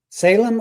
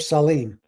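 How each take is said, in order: First: The second syllable sounds like 'lem'. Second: The second syllable sounds like 'leem'. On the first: The speaker calls it wrong. "apologize for pronouncing it Salem" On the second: The speaker calls it right. "I'll bet it's pronounced Salim"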